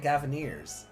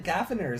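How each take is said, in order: First: The ending rhymes with 'ears'. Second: The ending sounds like 'ners', not 'ears'. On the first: "not the Gavineers" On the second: "Are they the Gaviners"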